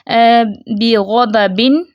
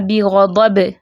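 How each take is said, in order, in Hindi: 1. शब्द का अंत साफ़ सुनाई देने वाली 'n' की आवाज़ से होता है। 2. शब्द का अंत उछलती हुई 'b' की आवाज़ पर होता है। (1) "अब हम मिलाकर पढ़ रहे हैं तो आवाज़ आ रही है" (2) "जब वक्फ करेंगे तो ये बा साकिन हो जाएगा और कलकला होगा"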